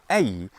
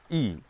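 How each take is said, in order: First: It is said as a gliding two-vowel diphthong. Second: It is said as one steady single vowel. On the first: The speaker calls it wrong. "ei est foedissimum mendum" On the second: The speaker calls it right. "e aut i licet dicere"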